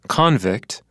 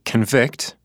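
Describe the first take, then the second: First: The stress is on the first syllable. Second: The stress is on the second syllable. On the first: It is used as a noun. "the second's a noun" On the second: It is used as a verb. "the first word of the pair is a verb"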